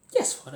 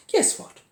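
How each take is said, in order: First: Said in the usual way. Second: Breathy hushed guess what; conspiratorial whisper before the reveal; whispered tease. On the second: Real, not acted. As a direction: lean in and whisper it like a secret. Teasing build-up to shocking news.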